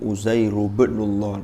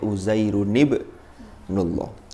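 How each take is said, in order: First: The final n sound of Uzairun is dropped. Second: The final n sound of Uzairun is kept. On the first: The speaker calls it wrong. "tidak dibaca" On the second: The speaker calls it right.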